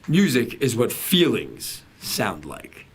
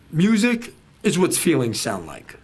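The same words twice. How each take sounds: First: The word feelings is stressed. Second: No word is given special stress.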